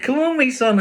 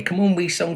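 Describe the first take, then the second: First: Very high, loud call; rally the puppy along. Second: High, louder coaxing call; calling the puppy. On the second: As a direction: egg the puppy on. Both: Acted.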